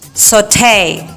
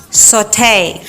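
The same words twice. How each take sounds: First: It is said in an American English accent. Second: It is said in an American English accent.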